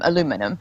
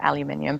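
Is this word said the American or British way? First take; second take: American; British. First: The word is said the American way. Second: The word is said the British way.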